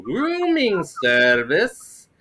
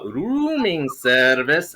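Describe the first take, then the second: First: Put-on slow, drawn-out Middle Eastern accent, pitched up. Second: "Rooming service" slow, with long drawn-out O's; Middle Eastern accent. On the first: Bellhop greeting hotel guests at the door, Middle Eastern accent. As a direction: stretch each vowel in a thick Middle Eastern accent. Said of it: "do the accent". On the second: Shown as a demonstration. Bellhop announcing himself, long O Middle Eastern accent. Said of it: "extend the O's".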